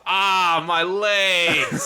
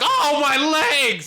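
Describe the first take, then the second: First: It is said flatly, like a cyborg. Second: It is screamed out in pain.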